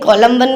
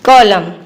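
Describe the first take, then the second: First: The word ends with an n sound. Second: The word ends with an m sound. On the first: The speaker calls it wrong. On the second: The speaker calls it right.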